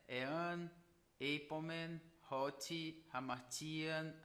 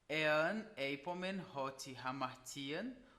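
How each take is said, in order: First: A pause separates each word from the next. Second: The words run together without pauses. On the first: The speaker calls it wrong. "de uma forma quebrada" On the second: The speaker calls it right. "ajuda na fluência da sua leitura"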